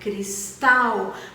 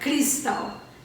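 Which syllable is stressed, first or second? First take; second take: second; first. First: The stress is on the second syllable. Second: The stress is on the first syllable. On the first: The speaker calls it right. "O acento forte vinha na segunda sílaba" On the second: The speaker calls it wrong. "ele não era tético"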